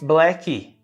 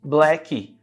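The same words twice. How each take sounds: No difference in how they are said.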